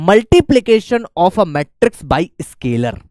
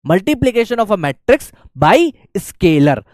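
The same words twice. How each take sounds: First: Very slow "multiplication of a matrix by scalar"; slow dictation. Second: Very slow "multiplication of a matrix by scalar" once more; slow dictation. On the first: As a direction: spell out the topic slowly for notes. (धीरे-धीरे बोलकर लिखवाना) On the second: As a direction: repeat the title slowly for notes. (फिर से धीरे-धीरे लिखवाना) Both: Shown as a demonstration. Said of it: "next अपने पास आता है".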